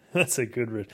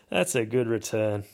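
First: Laughing through the words. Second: Said in the usual way. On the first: Real, not acted. Repeating his own joke to the viewers, laughing. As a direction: chuckle while repeating yourself.

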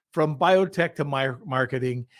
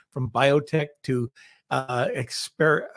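First: Said in the usual way. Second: Numb mouth, fumbling words; numb from the dentist. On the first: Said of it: "I'm trying to concentrate". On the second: Real, not acted. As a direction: speak through a numbed mouth. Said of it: "so my mouth is numb".

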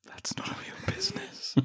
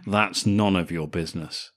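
First: Hushed, whispered, very upset; overdone solemn whisper; mock solemn. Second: Lightly cheeky brush-off; playful, coy refusal. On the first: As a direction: whisper it as if deeply wounded. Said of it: "she'd say it solemnly". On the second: Acted. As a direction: say it with a little cheek, at normal pitch. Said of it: "says it in a cheeky way".

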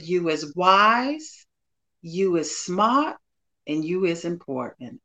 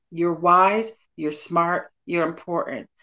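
First: Slow, gentle Southern "You is wise" quote, lightly imitated; a hint of a Southern accent, each line drawn out slowly; Viola Davis Southern voice. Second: Said in the usual way. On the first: Guest quoting Viola Davis in The Help, slow light Southern accent. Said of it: "she said in her Southern broken voice". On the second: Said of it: "that's what I'm saying to you".

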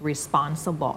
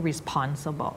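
First: "responsible" with a puffless P after the S; unaspirated P. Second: "responsible" with a clear puff on the P; wrong aspirated P. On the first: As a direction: say the P of "responsible" like Thai ป. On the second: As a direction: push air out on the P of "responsible". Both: Shown as a demonstration. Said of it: "เราจะไม่ responsible".

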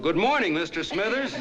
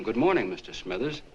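First: Retold yell. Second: Mild retold call to a neighbor; retold call over. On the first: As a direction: holler it as if to the next county. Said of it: "in a voice you could have heard in the next county, I yelled". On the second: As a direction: call it over without really raising your voice. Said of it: "so I yelled over to him".

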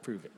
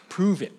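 First: Low, soft retelling of a challenge; understated, much quieter quote; toned-down quote. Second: Exaggerated blunt challenge, imitating a wife; hammed-up demanding quote; mock demand. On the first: Retold or imitated. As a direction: say it softly and low, imitating a wife. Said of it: "She didn't say it like that". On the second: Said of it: "she didn't say it like that".

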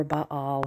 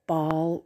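First: "Baal" split in two, "Bah-al"; two-syllable Baal. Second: "Baal" said as one syllable, like "ball". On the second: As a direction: say "Baal" to rhyme with "hall". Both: Shown as a demonstration. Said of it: "however you want to say it".

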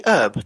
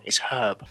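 First: HERB as erb; silent H. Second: HERB with a clear H, low; corrected pronunciation. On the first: Briton querying the American host, H-less HERB. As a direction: drop the h from "herb". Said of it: "the American herb". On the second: Briton correcting the host, H-ful HERB. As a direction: sound the h in "herb". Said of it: "No, that's wrong". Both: Shown as a demonstration.

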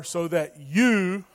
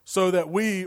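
First: Slow, with "you" held long; stress on "you". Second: "we" set apart at the end; stress on "we". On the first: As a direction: swap in "you" and lean on it. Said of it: "You replace "we" with "you". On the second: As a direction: read it out and land on "we". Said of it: "so that you can do". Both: Shown as a demonstration.

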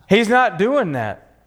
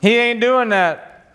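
First: Said in the usual way. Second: Slow, drawn-out Texan twang; "He ain't doing that" slow, with a Texan drawl. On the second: Shown as a demonstration. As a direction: let the Texan come out, slow. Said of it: "See, that's my Texan, sorry".

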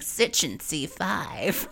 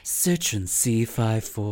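First: Very slow, higher impression; Erica. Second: Very slow car-ad impression; Luann. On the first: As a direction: stretch each word out like a put-on ad. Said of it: "You could hear her going". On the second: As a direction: stretch out the model name in a put-on ad voice. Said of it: "like, something like that".

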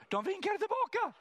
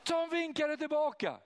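First: Laughing high-pitched punchline. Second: High, loud gleeful repeat; excited. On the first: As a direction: burst out laughing, voice way up. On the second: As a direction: ring it out high in delight. Repeat of punchline. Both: Real, not acted.

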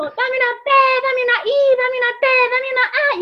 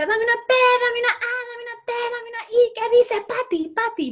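First: High, loud cheer with the letters jumbled; botched cheerleader yell. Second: High, loud cheerleader yell; cheerleader shouting. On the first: Cheerleader Patty on stage, high loud cheer yell, letters wrong. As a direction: shout it out, letters in the wrong order. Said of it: "Y entonces digo". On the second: Cheerleader Patty entering the stage, high loud cheer yell. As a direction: scream the cheer like a pep squad. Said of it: "A grito pelado". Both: Retold or imitated.

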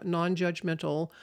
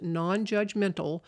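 First: Non-judgmental set apart and leaned on; stress on non-judgmental. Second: Said in the usual way. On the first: Shown as a demonstration. Speaker stresses the quality a trusted friend needs, emphasized. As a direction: give non-judgmental its own weight. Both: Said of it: "I will emphasize the word".

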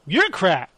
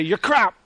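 First: Lightly imitated retort, falling at the end; insult thrown back. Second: Lightly mimicked chef's insult; Gordon Ramsay. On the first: Host replaying the cook's answer to the chef, mimicked retort. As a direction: throw the same put-down back. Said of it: "I did love that". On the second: Host replaying the kitchen spat, lightly imitated insult. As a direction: quote the chef's put-down in passing. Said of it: "Gordon Ramsay".

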